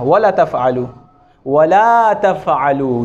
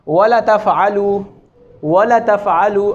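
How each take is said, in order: First: वला slow, the ला held for two beats; correct long vowel. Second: वला clipped short, the alif dropped; wrong short vowel. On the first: Teacher giving the correct reading. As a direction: stretch the ला in वला. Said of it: "ये दुरुस्त है". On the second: Teacher showing a common mistake. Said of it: "अलिफ को नहीं पढ़ा जा रहा". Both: Shown as a demonstration.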